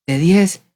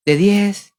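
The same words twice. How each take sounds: The two takes are said the same way.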